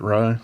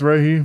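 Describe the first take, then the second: First: The name is said with one syllable. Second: The name is said with two syllables. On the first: "my roommate looked at it and immediately pronounced it Rai" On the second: "I think it's Raihi"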